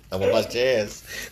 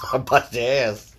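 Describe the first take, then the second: First: Said in the usual way. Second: Half-laughing mock threat. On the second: Real, not acted. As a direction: say it through a laugh. Playful threat while laughing.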